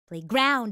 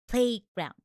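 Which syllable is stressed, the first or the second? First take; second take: second; first. First: The stress is on the second syllable. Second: The stress is on the first syllable. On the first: The speaker calls it wrong. "it would be kind of weird if you you know put stress on that word" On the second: The speaker calls it right. "the stress is on play"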